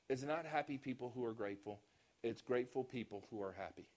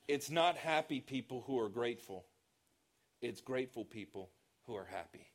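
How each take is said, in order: First: The sentence is said at a fast pace. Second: The sentence is said at a slower pace. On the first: The speaker calls it wrong. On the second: The speaker calls it right.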